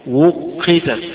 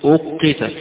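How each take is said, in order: First: The word begins with a w sound. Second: The word begins with a glottal stop. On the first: This reading keeps the original root sound. "قراءة أبي عمرو على الأصل، يعني الهمزة جاية من أصلها من الواو" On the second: This is the majority reading. "هذه قراءة الجمهور"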